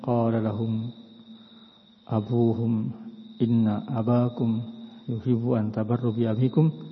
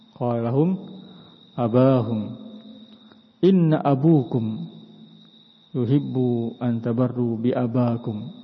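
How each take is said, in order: First: The case vowels are abuhum, abakum, abikum. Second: The case vowels are abahum, abukum, abakum. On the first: The case endings fit the grammar. The speaker calls it right. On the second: The case endings break the grammar. The speaker calls it wrong. "kalau baca seperti ini khata, salah"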